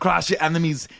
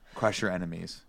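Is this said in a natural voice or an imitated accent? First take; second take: imitated; natural. First: It is said imitating a famous actor's heavy accent. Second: It is said in the speaker's own natural voice.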